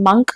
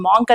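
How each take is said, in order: First: The vowel is a short 'uh' sound. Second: The vowel is a long open 'ah' sound. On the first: The speaker calls it right. "It should be pronounced అస్ మంక్ only" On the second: The speaker calls it wrong. "దాన్ని మాంక్ అని pronounce చేయకూడదు"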